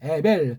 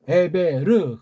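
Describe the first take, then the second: First: The name ends in an L sound, two syllables. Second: The name ends with a 'reu' syllable, three syllables. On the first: The speaker calls it wrong. "에벨 그렇게 발음한 건 번역이 잘못됐고" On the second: The speaker calls it right. "에베르 그렇게 해야 가깝습니다"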